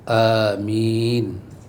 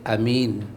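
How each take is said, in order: First: The first vowel a is drawn out long. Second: The first vowel a is kept short. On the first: "a dibaca panjang" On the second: "a baca pendek"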